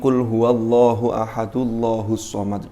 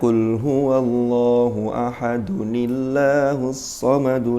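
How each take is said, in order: First: Ahad runs straight into Allah without a linking sound. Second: A short 'ni' sound links ahad to Allah. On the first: The speaker calls it wrong. "Bacanya begini, ... disambung maunya" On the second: The speaker calls it right.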